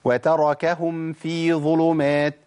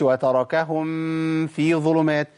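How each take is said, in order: First: The meem is pronounced clearly before the faa. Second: The meem is hidden with nasal sound before faa. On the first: The speaker calls it right. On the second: The speaker calls it wrong.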